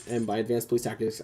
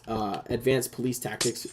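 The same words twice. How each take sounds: First: Said in the usual way. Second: "advanced police tactics" drawn out slowly with mock weight; mock-grand "advanced police tactics"; ironic emphasis. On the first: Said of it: "I mean he was there in a fucking uniform". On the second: Shown as a demonstration. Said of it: "and by advanced police tactics, I mean".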